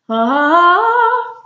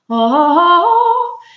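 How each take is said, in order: First: It is a normal speaking-position voice. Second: It is a fuller, further-back choral voice.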